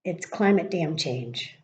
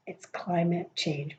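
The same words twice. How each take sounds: First: "damn" wedged in, slow and stressed; slow, with "damn" in the middle of "climate damn change"; quoting Gavin Newsom. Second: It's "climate" change, each word slow and weighted; slow emphatic statement. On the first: Retold or imitated. Newsom blaming climate change, slow with stress on damn. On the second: Shown as a demonstration. Insisting on climate change to viewers, slow and emphatic. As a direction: lean hard on "climate", slow down. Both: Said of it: "I don't know why I said it like that".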